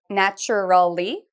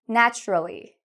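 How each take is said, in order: First: The word is said with four syllables. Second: The word is said with three syllables. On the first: The speaker calls it wrong. "we don't pronounce it that way" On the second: The speaker calls it right. "It has three syllables"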